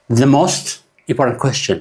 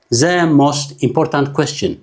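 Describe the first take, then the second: First: Said in the usual way. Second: "The most important question" read slowly, word by word, every letter pronounced; separate words. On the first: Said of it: "ኣብ ሰንተንስ ግን እንዳድመፅኩም ፈትነዋ". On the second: Shown as a demonstration. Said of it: "It doesn't sound English". ("The most important question" ቃል ብቓል ብዝግታ)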